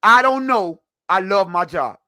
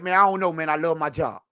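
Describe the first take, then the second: First: Mock noncommittal answer. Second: Low-key, softer imitation of a noncommittal player; retold noncommittal answer. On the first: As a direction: replay the player's dodge emphatically, in two separate beats. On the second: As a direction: toss off the quoted dodge quietly, all run together. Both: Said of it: "he was like".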